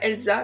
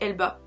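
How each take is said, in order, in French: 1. Le nom se prononce avec un son s. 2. Le nom se prononce avec un son b. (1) "c'était pas Elsa" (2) "mais c'était Elba"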